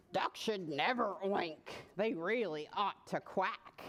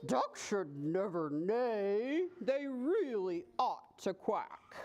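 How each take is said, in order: First: Lightly voiced low pig; sputtering pig. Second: Slow, low horse voice; taken-aback horse. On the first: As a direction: reprove in a lower pig voice. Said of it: "the pig just sputtered back". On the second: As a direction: reprove slowly, drawing the words out. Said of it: "He was taken quite aback". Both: A narrator's reading.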